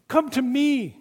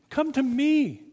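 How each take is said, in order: First: High, loud, falling me; shouted plea. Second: High, loud, falling me; shouted plea again. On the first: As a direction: cry out come to me. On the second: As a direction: call it once more. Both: A narrator's reading. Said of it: "shouts out".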